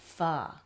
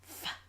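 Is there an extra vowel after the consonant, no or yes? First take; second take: yes; no. First: The consonant is followed by an extra uh vowel. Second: The consonant is said alone with no vowel. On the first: The speaker calls it wrong. "you're adding an uh sound" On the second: The speaker calls it right. "Keep them nice and clean"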